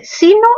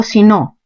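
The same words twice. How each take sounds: First: Sino said as SI-no; stress on SI. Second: Sino said as si-NO; stress on NO. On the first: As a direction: hit the first syllable of sino. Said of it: "aquí está la fuerza en sí". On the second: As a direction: push the second syllable of sino. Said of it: "mayor fuerza estaría en el no". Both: Shown as a demonstration.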